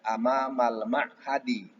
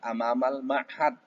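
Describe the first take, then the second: First: The final vowel of the last word is pronounced. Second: The final vowel of the last word is dropped. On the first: It is read in full with all case endings. "Kalau mau dibaca lengkap dengan barisnya" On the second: It is read in the shortened pause form. "nggak jadi masalah"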